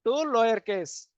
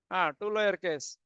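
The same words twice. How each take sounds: First: Slow dictation. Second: Said in the usual way. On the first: Shown as a demonstration. Teacher dictating the method name slowly. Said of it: "You can convert into".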